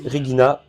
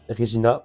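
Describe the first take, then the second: First: "Regina" pronounced re-GHEE-na; hard-G Latin "Regina". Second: "Regina" pronounced re-ZHEE-na; French soft-G "Regina". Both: Shown as a demonstration. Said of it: "je sais pas si on dit Regina ou".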